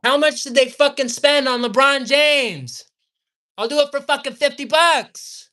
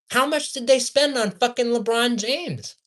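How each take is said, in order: First: Loud, high-pitched angry shouting; heated. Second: Exasperated, higher-pitched demand; getting worked up in disbelief; heated. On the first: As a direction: yell it in real outrage. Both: Real, not acted. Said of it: "I'm getting heated".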